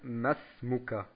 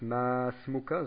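First: The vowel after the first M is short. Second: The vowel after the first M is long. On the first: The speaker calls it right. "sondern wir sagen Masmuka" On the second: The speaker calls it wrong. "Wir sagen also nicht Masmuka"

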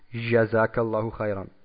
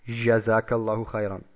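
First: The j is a soft zh as in French. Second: The j is a soft zh as in French.

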